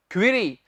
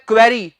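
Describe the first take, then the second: First: क्वेरी said as kwee-ree; correct pronunciation. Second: क्वेरी said as kway-ree; wrong pronunciation. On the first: Teacher giving students the right sound. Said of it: "आपने कहना है". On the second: Teacher showing the common mistake. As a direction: say क्वेरी with the open kway sound. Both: Shown as a demonstration.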